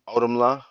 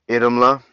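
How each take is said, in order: First: The name begins with an 'ow' sound. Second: The name begins with an 'ee' sound. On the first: The speaker calls it wrong. "normally be Audumla, but I know it's not Ao because that's a Tolkien thing" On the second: The speaker calls it right. "the Icelandic pronunciation"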